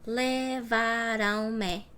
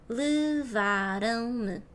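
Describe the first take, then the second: First: Every vowel is fully pronounced. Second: The unstressed vowels are swallowed and reduced. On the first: The speaker calls it wrong. "If I was pronouncing every single letter, every single vowel" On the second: The speaker calls it right. "We close it and we eat vowels"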